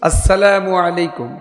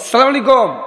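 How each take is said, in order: First: Every syllable is said in the full form. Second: The opening syllables are dropped in a shortened form. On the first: The speaker calls it right. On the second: The speaker calls it wrong.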